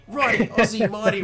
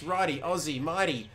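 First: High, loud mock New Zealand accent. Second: Said in the usual way. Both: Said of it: "Why did I say that in a New Zealand accent?".

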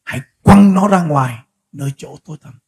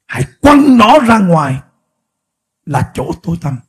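First: Lower, deliberate repeat with stress on "quăng"; solemn, measured restating of the verse; weighty repeat. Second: Slow, louder reading of the verse; drawn out verse reading; slow quoted verse. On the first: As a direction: press hard on "quăng" as you say it again. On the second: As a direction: lean on each word of "Hãy quăng nó ra ngoài". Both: Shown as a demonstration. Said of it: "Anh em nghe kỹ điều này".

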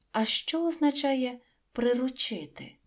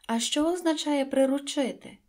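First: Said in the usual way. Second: Insistent. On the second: A narrator's reading. Prince insists, repeated.

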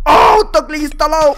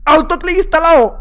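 First: Slower, loud, higher wail, voice cracking; anguished shout. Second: Loud, higher, punchy announcement of the cheat; triumphant announcement. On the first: Gamer wailing to viewers as his cheat fails, loud crying shout. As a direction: howl it out in despair as everything collapses. Repeats it as he loses. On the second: Gamer crowing to viewers about his autoclick, loud and triumphant. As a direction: call it out proudly like a game alert. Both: Real, not acted.

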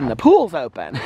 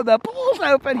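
First: Lightly imitated joke, amused; Alex being silly. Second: High-pitched, amused disbelief; mock incredulous echo. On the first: Retelling Alex's pool joke, lightly silly and amused. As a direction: quote the teasing punchline with a laugh. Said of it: "He was being so silly". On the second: Repeating the joke back to Alex, high mock disbelief. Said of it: "I go".

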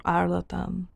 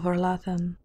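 First: Arlatan with a hard "t" in the last syllable; Arlatan, ending "-tan"; alternative pronunciation. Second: Arlathan, ending "-than"; pronunciation with th. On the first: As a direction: say Arlatan, t in place of th. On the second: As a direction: say Arlathan, th as in "thin". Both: Shown as a demonstration. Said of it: "or Arlatan".

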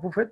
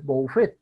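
First: Buffet said bufet, with u; plain u in buffet; everyday pronunciation. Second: Buffet said bo-u-fet; spelled-out vowel pair. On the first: Teacher quoting how we usually say buffet, as bufet. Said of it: "decimos buffet". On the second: Teacher correcting buffet to show the diphthong, bo-u-fet. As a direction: sound o then u in buffet. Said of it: "pero es buffet". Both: Shown as a demonstration.

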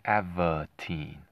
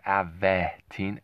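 First: Avitene with a neutral "vuh" in the middle; suggested pronunciation. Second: Avetine with a stressed "veh" in the middle; wrong pronunciation. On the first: Host showing how the drug may be pronounced, Avitene drawn out with "vuh". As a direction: say Avitene slowly, as AV-uh-teen. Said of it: "Maybe that's how it's pronounced". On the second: Host showing how the drug is not pronounced, Avetine with a clear "veh". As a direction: say Avetine slowly, as av-VEH-teen. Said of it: "maybe you pronounce it the same". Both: Shown as a demonstration.

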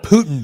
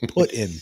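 First: "Putin" said like the Russian surname; mistaken name demonstrated. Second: "Put in" said as two words; corrected pronunciation. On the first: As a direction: say "Putin" as one word, POO-tin. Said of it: "Not Putin Bay". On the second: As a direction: say "Put in" with put like placing something, then in. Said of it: "Pit, no". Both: Shown as a demonstration.

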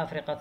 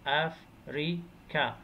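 First: Said in the usual way. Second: "أفريكا" broken into three separate syllables; "أفريكا" in three detached beats; split into syllables. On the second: Shown as a demonstration. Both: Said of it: "three syllables".

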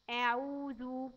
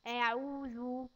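First: أعوذ said slowly, ending in a slow spelled-out ذ; slow dhal. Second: أعوذ with the tongue tip between the teeth on the ذ; clear dhal. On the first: Teacher repeating the word for a child. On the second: Teacher showing a child the ذ sound between the teeth. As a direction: stretch أعوذ slowly, ذ as th in "this". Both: Shown as a demonstration. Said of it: "نطلع فيه لساننا حاجة صغيرة خالص بين سناننا".

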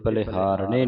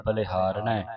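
First: ਬਲਿਹਾਰਣੇ ending in a plain long e; wrong ending. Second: ਬਲਿਹਾਰਣੈ ending in an open "ai"; double-lanv ending. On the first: Teacher showing students the misreading, ਬਲਿਹਾਰਣੇ with an e ending. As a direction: say ਬਲਿਹਾਰਣੇ with a single-lanv "e" ending. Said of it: "ਨਹੀਂ ਪੜਨਾ". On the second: Teacher correcting students' reading, ਬਲਿਹਾਰਣੈ with open ai ending. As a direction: end ਬਲਿਹਾਰਣੈ on open ai, not e. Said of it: "ਦਲਾਵਾਂ ਲੱਗੀਆਂ". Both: Shown as a demonstration.

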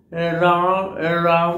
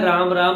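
First: राम राम dragged out very slowly, each र lifted deliberately; over-careful articulation. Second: Said in the usual way. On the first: Shown as a demonstration. Speech coach demonstrating the wrong, overthought way to say राम राम. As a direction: stretch राम राम syllable by syllable, very slow. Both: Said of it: "अगर ऐसे बोलोगे तो ये normal speaking नहीं है".

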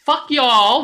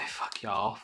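First: Loud, high Southern American drawl; exaggerated Southern American twang, pitched up; weird Southern American accent. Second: Low, soft Southern American echo; muted Southern American accent, half to himself. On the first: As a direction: holler it like a cartoon Southerner. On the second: Acted. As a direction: repeat it quietly with a Southern American twang. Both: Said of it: "a weird Southern American accent".

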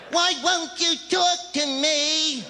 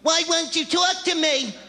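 First: High and slow, stretching the whine; slower, pitched-up mock whine; drawn-out whiny girlfriend. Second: Put-on high, whining girlfriend voice with a laugh in it; mock the clingy girlfriend, pitched up; nagging girlfriend impression, high; whiny girlfriend. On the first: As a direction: drag out the clingy plea. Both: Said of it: "They're there afterwards going".

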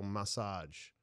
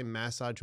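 First: "massage" said muh-SAHJ, weak first vowel; "massage" with the weight on the long "-sahj"; second-syllable stress massage. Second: "massage" said MASS-ahj, open flat A up front; "massage" with a full "mass" at the start; first-syllable stress massage. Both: Shown as a demonstration. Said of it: "do I say massage or massage".

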